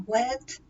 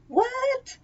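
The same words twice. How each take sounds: First: Higher-pitched, disbelieving what; a first short double take; surprised. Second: Very high, squeaky what; shocked disbelief. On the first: Shocked that it is already September. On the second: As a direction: shoot way up in pitch, incredulous. Escalating disbelief at the date. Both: Real, not acted.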